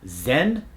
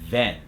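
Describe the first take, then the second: First: The word starts with a z sound. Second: The word starts with a th sound. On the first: The speaker calls it wrong. "a lot of foreign accents make the Z sound instead of the th sound" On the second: The speaker calls it right. "We want that tip of the tongue to go between the teeth"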